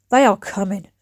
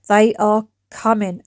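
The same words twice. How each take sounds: First: Said in the usual way. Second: Mock ominous. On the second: Shown as a demonstration. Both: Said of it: "cleaning videos that are coming your way".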